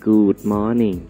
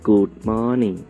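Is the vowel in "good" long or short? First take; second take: long; long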